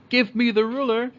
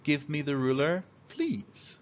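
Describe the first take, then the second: First: High, loud bossy demand; rude demand. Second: Plain, gentle request with please; polite request. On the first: Kid rudely demanding the ruler, high loud bossy tone. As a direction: bark it at the teacher like an order. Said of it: "Instead of saying". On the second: Kid politely asking for the ruler, gentle request. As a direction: ask nicely, lifting please. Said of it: "we say". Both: Shown as a demonstration.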